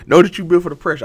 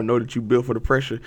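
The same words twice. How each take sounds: First: "Know that you built for the pressure" repeated higher and louder, punching "Know"; emphatic repeat. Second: Said in the usual way. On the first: Shown as a demonstration. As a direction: drive the quote home the second time. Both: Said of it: "one of these things said".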